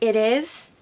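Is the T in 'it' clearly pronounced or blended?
blended. The T is blended, sounding more American.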